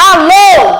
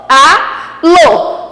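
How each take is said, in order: First: Said in the usual way. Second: "alô" split in two, "a", pause, "lô"; syllable by syllable. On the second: Shown as a demonstration. Teacher separating a word for pupils, "alô" syllable by syllable. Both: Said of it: "fazendo a separação".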